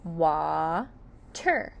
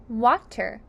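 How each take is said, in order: First: "Wa-ter" in two held beats with a gap; "Wa-ter" broken syllable by syllable; split into syllables. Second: Said in the usual way. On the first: Shown as a demonstration. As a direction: stretch "Wa", pause, then "ter". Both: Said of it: "Water has two syllables".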